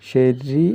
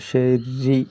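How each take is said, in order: Both takes have the same delivery.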